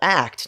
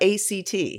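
First: It is said as the single word act. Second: It is spelled out as three separate letters. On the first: The speaker calls it right. "we mean that because it is an active" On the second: The speaker calls it wrong. "not ACT"

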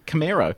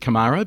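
First: It is pronounced with an American accent. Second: It is pronounced with an Australian accent. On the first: "but it's apparently Camaro ... I think it's an American thing" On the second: "being an Aussie, I said Camaro"

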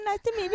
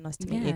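First: It sounds timid and eager to please. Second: It sounds confident and assertive.

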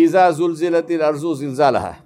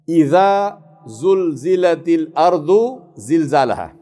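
First: The z-like letters are all said as plain z. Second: The z-like letters keep their distinct Arabic sounds. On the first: The speaker calls it wrong. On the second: The speaker calls it right.

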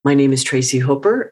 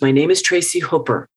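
First: The voice rises at the end, like a question. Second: The voice steps down at the end, like a statement.

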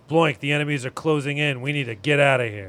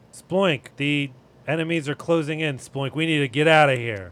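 First: It sounds more confident and firm. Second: It sounds hesitant and unsure.

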